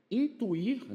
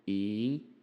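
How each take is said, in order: First: Said in the usual way. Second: "Intuir" broken into in, tu, ir with long pauses; syllable by syllable. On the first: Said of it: "ó". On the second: Shown as a demonstration. Teacher showing why "Intuir" takes no accent, syllable by syllable. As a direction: split "Intuir" slowly, pausing between syllables. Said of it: "porque tá colado com R".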